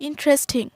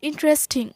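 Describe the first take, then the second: The two takes are said the same way.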